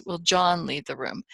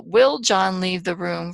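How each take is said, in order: First: John stressed, falling tune. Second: Will leaned on, slow and loud; stress on Will. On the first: Teacher shows the class a stress on "John". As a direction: put the weight on "John" and let it fall. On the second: Teacher shows the class a stress on "Will". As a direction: open with a hard push on "Will", the rest light. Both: Shown as a demonstration. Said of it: "change the meaning depending on where we put the emphasis".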